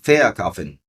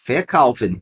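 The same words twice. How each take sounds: First: The stress is on the first syllable. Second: The stress is on the second syllable. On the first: The speaker calls it wrong. "e não verkaufen" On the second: The speaker calls it right. "na ênfase da pronúncia eu vou dizer verkaufen"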